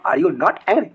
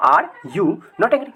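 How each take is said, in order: First: Said in the usual way. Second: Each word of are you not angry stretched out slowly; slow and clear. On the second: Shown as a demonstration. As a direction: spell it out slowly for the class. (धीमे और साफ़ उच्चारण) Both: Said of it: "ऐसे बोल सकते हो".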